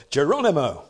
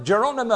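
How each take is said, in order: First: Geronimo said at normal pitch, a touch louder; the retake of Geronimo, full and steady at usual pitch; corrected battle cry. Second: High, loud Geronimo shout, half swallowed; the first take of Geronimo, pitched high and loud but clipped at the end; first try at the cry. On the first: Preacher redoes the paratroopers' cry: steadier Geronimo. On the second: Preacher tries the paratroopers' cry: high yelled Geronimo. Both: Shown as a demonstration. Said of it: "I'll get it right way".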